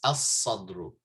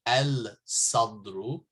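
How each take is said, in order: First: As-sadru with a doubled s, no l; right as-sadru. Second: Al-sadru with the l sounded; wrong al-sadru. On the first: Teacher gives students the correct as-sadru. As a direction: say as-sadru, lam silent. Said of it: "it's as-sadru". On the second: Teacher shows students the wrong al-sadru. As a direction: say al-sadru with a clear lam. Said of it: "you don't say al-sadru". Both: Shown as a demonstration.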